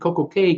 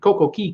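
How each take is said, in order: First: The last word sounds like the letter K. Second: The last word sounds like 'key'. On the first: "Royal obviously wants you to say K" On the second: "not Key"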